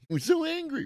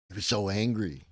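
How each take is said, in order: First: Much higher, mocking falsetto; a mocking high-pitched take on his anger; mock squeaky high voice. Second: Said in the usual way. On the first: Mocks angry guy in squeaky voice.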